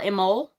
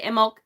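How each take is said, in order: First: It ends with no final consonant. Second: It ends with a slight K sound. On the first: "it's totally silent. There's no uh, at the end at all" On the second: "there's a very slight C sound at the end of it for me"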